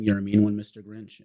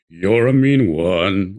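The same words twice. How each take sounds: First: Said in the usual way. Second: Deep, slow, low-sung line; very low Grinch line. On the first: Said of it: "I always sing". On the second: Shown as a demonstration. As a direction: drop as low as the Grinch song goes. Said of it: "I can actually sing it as low as the".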